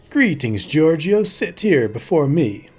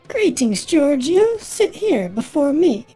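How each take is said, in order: First: It is said in the speaker's plain voice. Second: It is said in a put-on character voice.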